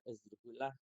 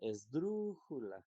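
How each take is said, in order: First: The stress is on the final syllable. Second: The stress is on the third-to-last syllable. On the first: The speaker calls it wrong. "si la sílaba tónica fuera la última" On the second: The speaker calls it right. "dru es la sílaba tónica"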